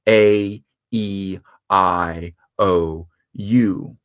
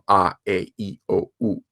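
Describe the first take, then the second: First: The vowels get English letter names like 'ay, ee, eye'. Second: The vowels get continental values like 'ah, eh, ee'. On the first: "But in English, they've come to have very different names. We say" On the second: "completely different from"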